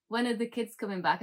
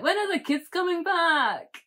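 First: Said in the usual way. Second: Put-on high, loud caricature Scottish accent; exaggerated Scottish accent. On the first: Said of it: "He sounds normal". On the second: Wife mimicking her Scottish husband, exaggerated Scottish accent. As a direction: parrot it back in silly, over-the-top Scottish. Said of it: "reply back in my own Scottish accent".

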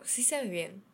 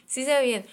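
First: Said in the usual way. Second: Sí se ve bien louder, higher, stress on se; emphatic repeat. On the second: Real, not acted. Assuring viewers the fringe really does look good, emphatic. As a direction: insist on se, convincing them.

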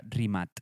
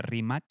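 First: Croatian-style Rimac, said as Rimat; Rimac with final T. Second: The spelled-out K pronunciation of Rimac; Rimac with final K. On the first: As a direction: end Rimac on a T sound. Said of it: "se pronuncia Rimat". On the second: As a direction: end Rimac on a hard K sound. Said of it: "no se pronuncia Rimac". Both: Shown as a demonstration.

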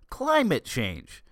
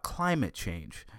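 First: Slow, higher, disbelieving repeat; scoffing at the phrase; incredulous. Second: Said in the usual way. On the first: Acted. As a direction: echo it back like it's absurd.

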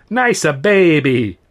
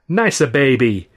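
First: Slow, higher, louder coo; cooing barber. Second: Slow, sing-song coo; cooing barber. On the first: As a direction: coo it again with more relish, slowly. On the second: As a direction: coo it like to a baby, slowly. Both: A narrator's reading. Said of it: "he cooed".

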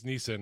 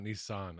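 First: Nissan said like NEE-sin; brand pronunciation. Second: Nissan said like NEE-sahn; rejected pronunciation. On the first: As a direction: say Nissan with a short, reduced last vowel. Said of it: "I think it's Nissan". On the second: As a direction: say Nissan with an open "ah" ending. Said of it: "not Nissan". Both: Shown as a demonstration.

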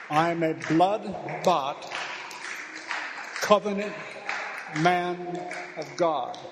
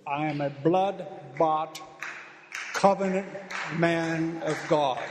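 First: Slow and louder, covenant ringing out; slow, louder declaration, covenant shouted. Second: Slow declaration. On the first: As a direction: repeat it stronger, almost shouting. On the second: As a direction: proclaim it slowly, hitting covenant. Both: Shown as a demonstration. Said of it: "You tell it".

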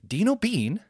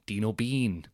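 First: "Dino Bean" high, as an incredulous query; mock compere querying "Dino Bean" in a raised pitch; Mick Ferry. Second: Note down DINO BEAN with a dropping, unimpressed tune; deadpan compere repeating "Dino Bean" in everyday pitch; Mick Ferry. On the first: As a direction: throw DINO BEAN back as a doubting question. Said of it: "say his name twice with two different inflections". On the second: Retold or imitated. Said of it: "two different inflections".

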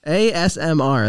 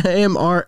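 First: "A S M R" spelled out slowly, every letter; corrected letters. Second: "A M R" said with the S left out; wrong letters. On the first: Shown as a demonstration. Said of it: "That's what it was". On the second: Retold or imitated. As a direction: quote "A M R" skipping the S. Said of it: "You started to do the A M S".

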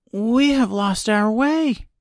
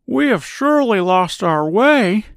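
First: Put-on high, slow girl voice; lost girl. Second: High-pitched grumbling scarecrow voice. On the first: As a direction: explain it slowly as a young girl. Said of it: "said Dorothy". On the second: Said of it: "began to grumble a bit". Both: A narrator's reading.

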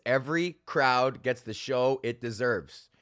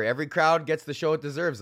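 First: "Every crowd gets the show it deserves" said slowly, each word weighed, stress on "Every"; slow emphatic motto. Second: Said in the usual way. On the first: Real, not acted. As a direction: lay it down like a personal creed, slowly. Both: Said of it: "I'm a firm fucking believer of this".

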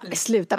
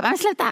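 First: Said in the usual way. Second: High, loud panicked protest; shocked cry of stop; alarmed cry. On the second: Retold or imitated. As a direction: yelp it in shock at her own voice. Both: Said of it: "Jag bara".

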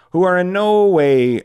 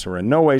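First: "who are in no way" slower, higher and louder, leaning on "no"; emphatic restart. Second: Said in the usual way. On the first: Real, not acted. Mocking teen bosses to listeners, stressing "no" in "who are in no way". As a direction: land hard on "no" in "who are in no way".

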